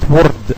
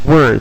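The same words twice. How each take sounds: First: The R is rolled or tapped. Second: The R is a soft English R. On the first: The speaker calls it wrong. "It's not word" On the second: The speaker calls it right. "It's word"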